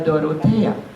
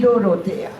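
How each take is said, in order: First: The name begins with a clear D sound. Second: The name begins with a sound replacing D. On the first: This is the standard form of the name. "Pero nunca se podría decir esto en matsigenga" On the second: This is how speakers without a D sound said it. "era la pronunciación. ... Porque no había D"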